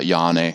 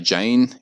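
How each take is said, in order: First: The word begins with an English Y sound. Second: The word begins with an English J sound. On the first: The speaker calls it right. "it's more like a Y in English" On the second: The speaker calls it wrong. "don't look at it and say Jane"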